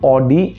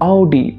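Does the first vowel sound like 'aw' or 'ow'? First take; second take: aw; ow. First: The word begins with an 'aw' vowel. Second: The word begins with an 'ow' vowel. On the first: The speaker calls it wrong. "অডি actual pronunciation না" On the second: The speaker calls it right. "সেটা হচ্ছে আউডি"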